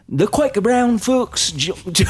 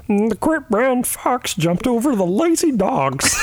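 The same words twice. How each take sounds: First: Much higher, slow, shouted Australian like a worship leader; high slow shouted Australian, hammed-up; Australian accent. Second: Much higher, slow frog puppet voice; high slow Kermit impression. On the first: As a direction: belt it out like a [name] singer. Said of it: "pretend like you're at a [name] concert". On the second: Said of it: "Yours is Kermit the Frog".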